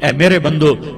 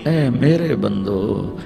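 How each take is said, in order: First: It is said plainly, without warmth. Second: It is said tenderly, with loving warmth. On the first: The speaker calls it wrong. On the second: The speaker calls it right.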